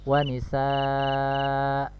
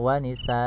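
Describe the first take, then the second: First: The final vowel is held long. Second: The final vowel is cut short. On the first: The speaker calls it right. "dibaca tetap panjang dua harokat" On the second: The speaker calls it wrong. "bukan disukunkan, misalnya wanisa, ini salah ya"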